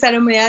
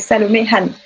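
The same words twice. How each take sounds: First: The H at the start of Han is silent. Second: The H at the start of Han is pronounced. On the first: The speaker calls it wrong. "beaucoup vont prononcer Salomé Han" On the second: The speaker calls it right. "on va prononcer le H"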